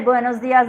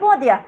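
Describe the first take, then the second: First: Every s sound is clearly pronounced. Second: The s sounds are dropped and it's quick. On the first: This is the standard way most speakers say it. "we say buenos dias" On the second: This is how speakers from Argentina or southern Spain say it. "they're not pronouncing s"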